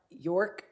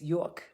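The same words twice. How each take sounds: First: It is said in a plain, neutral accent. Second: It is said in a thick New York accent. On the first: The speaker calls it wrong. "it's not York" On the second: The speaker calls it right. "I got to mix Jersey with New York"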